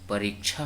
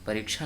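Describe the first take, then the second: First: The second vowel is long. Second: The second vowel is short. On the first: The speaker calls it right. "परीक्षा होता है" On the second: The speaker calls it wrong. "परीक्षा नहीं होता है"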